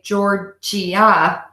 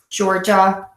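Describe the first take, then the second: First: The ending is split into separate i-a syllables. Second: The word is two quick beats in total. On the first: The speaker calls it wrong. "be really careful of this I A here at the end. We don't say Georgia" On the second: The speaker calls it right. "It's just two quick beats"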